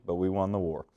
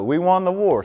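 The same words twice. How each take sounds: First: Said in the usual way. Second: Loud teasing boast. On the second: Real, not acted. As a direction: boast it louder and higher, teasing. Teasing about the war.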